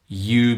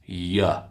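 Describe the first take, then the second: First: The word has a full, clear vowel. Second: The word has a weak, reduced vowel.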